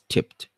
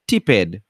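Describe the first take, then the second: First: The ending is a single t sound. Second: The ending is an extra separate syllable. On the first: The speaker calls it right. "Tip becomes tipped" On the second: The speaker calls it wrong. "we don't say"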